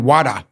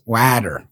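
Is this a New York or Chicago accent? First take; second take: New York; Chicago. First: It is said in a New York accent. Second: It is said in a Chicago accent.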